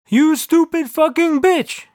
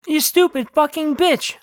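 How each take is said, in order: First: Slow, high-pitched booming yell; God yelling. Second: Higher-pitched, contained yell; mild shout. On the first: God scolding the narrator, slow acted yell. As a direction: stretch out every word of the insult. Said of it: "yelled God". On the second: Owner at his barking dog, mild shout. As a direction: scold the dog without full volume. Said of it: "I shouted". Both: A narrator's reading.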